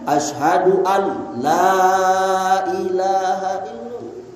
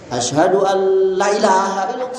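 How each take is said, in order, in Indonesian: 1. Vokal pada la diucapkan panjang dan ditarik. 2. Vokal pada la diucapkan cepat dan pendek. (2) "La-nya cepet dibaca pendek. ... Salah itu"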